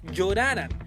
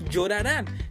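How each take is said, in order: First: The stress falls before the last syllable. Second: The stress falls on the last syllable. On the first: The speaker calls it wrong. "Si a esta palabra no le pusiéramos tilde, diría" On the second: The speaker calls it right. "La manera correcta es"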